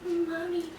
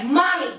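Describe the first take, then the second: First: A faint, much softer mommy that hardly gets out; barely audible. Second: A mild mock cry for mommy, as if screaming it; imagined scream. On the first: Retold or imitated. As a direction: let mommy come out weak and tiny, soft. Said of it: "But that's not what came out". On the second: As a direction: call out mommy as if it were a scream. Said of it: "I swore I screamed it".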